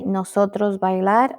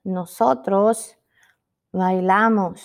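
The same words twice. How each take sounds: First: "nosotros bailar" as a rising question; questioned wrong example. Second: "nosotros", a pause, then falling "bailamos"; corrected form. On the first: Teacher asking if we say this, questioning. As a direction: ask it doubtfully, lifting "bailar". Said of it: "Mm-mm". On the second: Teacher giving students the correct form, deliberate. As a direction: set "bailamos" apart and land it firmly. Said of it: "We say". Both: Shown as a demonstration.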